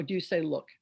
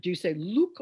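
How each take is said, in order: First: Said in the usual way. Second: "look" said as "luke"; long-oo look. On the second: Shown as a demonstration. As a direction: say LOOK with the oo of "moon". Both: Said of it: "what are the correct sounds in the word".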